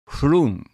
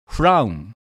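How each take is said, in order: First: The vowel is a long 'oo' sound. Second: The vowel is an 'ow' diphthong. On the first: This is the Scottish dialect form. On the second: This is the standard English form.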